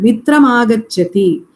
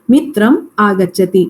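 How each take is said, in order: First: The words run together without a pause. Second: There is a pause between the words.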